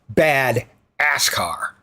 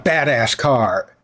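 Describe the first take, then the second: First: The words 'ass car' group together after 'bad'. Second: The words 'bad ass' group together before 'car'. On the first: The car is a bad ass-car. "He moves the hyphen" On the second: The car is impressive. "it's not a badass car"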